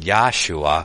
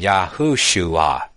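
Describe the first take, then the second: First: The name is said without a 'hu' syllable. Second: The name is said with a 'hu' syllable. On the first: The speaker calls it wrong. "I'm not saying Yahshua" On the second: The speaker calls it right. "I'm saying Yahushua"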